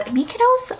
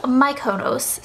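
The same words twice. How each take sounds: First: Mykonos as MEE-kuh-nohss, rising; "Mykonos" with first syllable like "me"; first pronunciation. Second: Mykonos as my-KOH-nohss, slow and falling; "Mykonos" starting like "my"; alternative pronunciation. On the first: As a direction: say "Mykonos" starting with a stressed MEE. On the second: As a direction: say "Mykonos" slowly with MY, then stressed KOH. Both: Shown as a demonstration. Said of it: "I actually don't know how to pronounce it".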